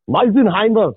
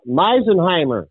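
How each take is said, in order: First: It is said in a German accent. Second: It is said in a plain accent.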